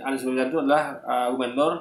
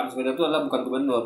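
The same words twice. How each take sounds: First: Said in the usual way. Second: Rattled off fast, a brisk denial; quick dismissive quote. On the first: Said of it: "ada orang meyakini". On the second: Retold or imitated. Quoting the other side's denial, fast and brisk. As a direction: fire off the opposing claim quickly. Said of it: "mereka katakan".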